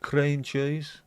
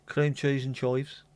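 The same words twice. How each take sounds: First: Said in the usual way. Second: Slow Brummie Cream cheese and chives with chives as choives; drawn-out Birmingham vowels; Brummie accent. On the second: Shown as a demonstration. Reading crisp flavours from the pub, slow Brummie accent. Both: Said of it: "always sound better in a Brummie accent".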